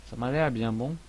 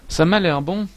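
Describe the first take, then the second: First: Said in the usual way. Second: High, loud, hammed-up Québécois accent; exaggerated Quebec French accent, playful; mock Québécois accent. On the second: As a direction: throw on a jokey Québécois twang. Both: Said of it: "mon accent ridicule".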